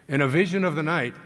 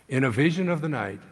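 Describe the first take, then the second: Both takes have the same delivery.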